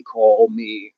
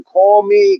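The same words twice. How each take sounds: First: Said in the usual way. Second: Put-on Boston accent. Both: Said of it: "was [name] from Boston?".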